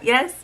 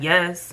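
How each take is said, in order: First: The word is said in a pleasant, friendly tone. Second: The word is said in a curt, unfriendly tone. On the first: "I said it pleasant" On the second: "I wasn't like"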